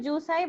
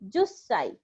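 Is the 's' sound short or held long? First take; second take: short; long. First: The 's' sound is short and single. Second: The 's' sound is held long and doubled. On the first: This is the form the regular pattern predicts. The speaker calls it wrong. "it should be jusai" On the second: This is the actual irregular form. The speaker calls it right. "it is an exception and pronounced as jussai"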